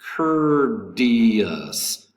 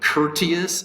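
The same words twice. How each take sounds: First: The middle consonant sounds like a soft D. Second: The middle consonant is a clear T sound. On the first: The speaker calls it right. "The T in courteous is pronounced like an American uh, or like a D" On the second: The speaker calls it wrong. "instead of courteous"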